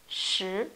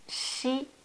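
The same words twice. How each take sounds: First: The sh sound is made with lips pushed slightly forward. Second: The sh sound is made without pushing the lips forward. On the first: The speaker calls it right. "c'est shi. Sortez un petit peu les lèvres" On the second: The speaker calls it wrong. "il ne faut pas prononcer comme shi"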